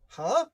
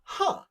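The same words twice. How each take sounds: First: It sounds like a puzzled question. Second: It sounds like a sudden understanding. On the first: The listener is confused. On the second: The listener has just grasped the point.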